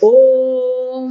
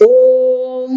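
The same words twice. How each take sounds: First: The vowel is drawn out for three beats. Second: The vowel is drawn out for three beats.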